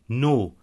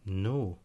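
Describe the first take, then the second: First: The no sounds firm and clearly negative. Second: The no sounds light and not negative.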